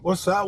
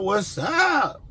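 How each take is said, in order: First: Said in the usual way. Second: Shouted greeting. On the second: Shown as a demonstration. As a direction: call out "What's up?" like hyping up the viewers.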